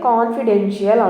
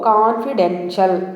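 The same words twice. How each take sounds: First: An extra 'ee' sound comes before the last syllable. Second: No 'ee' sound comes before the last syllable. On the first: The speaker calls it wrong. "మనం జనరల్గా దీని ప్రొనౌన్సియేషన్ అనేది తప్పుగా చేస్తున్నాం" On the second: The speaker calls it right. "ఇక్కడ ఐ యొక్క శబ్దం అనేది సైలెంట్"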